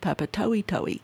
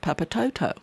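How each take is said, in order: First: Each middle vowel is pronounced as its own sound. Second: The middle vowels are joined into one sound. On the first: The speaker calls it right. "because they pronounce each vowel" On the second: The speaker calls it wrong. "So I call it Papatoto. And they just laughed at me"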